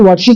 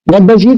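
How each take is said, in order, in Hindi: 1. शब्द आपस में मिलकर एक छोटे रूप में बोले जाते हैं। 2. हर शब्द अलग से और पूरा बोला जाता है।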